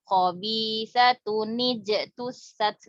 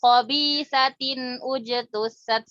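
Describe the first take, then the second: First: "khobi satun nijetusat", slowly, nun carried into "ni" with an i; joined reading with kasrah. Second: "khobi satin ujetusat", slowly, stopping the nun in satin before "ujetusat"; wrong unjoined reading. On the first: Teacher showing the readable version, "satun nijetusat" joined with kasrah. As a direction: link "satun" into "nijetusat" through a short ni. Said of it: "kita berikan kasro biar kita bisa baca".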